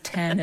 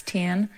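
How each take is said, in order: First: Said in the usual way. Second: Ten said as tin in the accent; the accent's E into I. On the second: Shown as a demonstration. Showing how the accent turns ten into tin. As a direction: turn the E of ten into an I. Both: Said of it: "they turn the, like, E's into I's".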